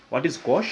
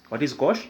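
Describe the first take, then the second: No difference in how they are said.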